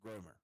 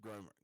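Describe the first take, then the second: First: The name is said with an English pronunciation. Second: The same.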